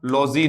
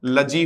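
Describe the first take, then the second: First: लॉजी with a full open o, lozi; the wrong way, लॉजी; लॉजी stretched with a round o; wrong long o. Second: लजी with a short neutral vowel, ləji; लजी said quick and unstressed, like luh-jee; short lazy ending. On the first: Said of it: "लॉजी नहीं होगा". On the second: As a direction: say लजी, not लॉजी. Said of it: "इसका pronunciation भी मित्रों लजी होगा". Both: Shown as a demonstration.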